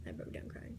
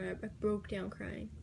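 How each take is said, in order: First: Whispered, much softer, almost to herself; hushed repeat. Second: Said in the usual way. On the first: Real, not acted. Girl recalling breaking down on the field, whispering. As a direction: let the words fade to a breath.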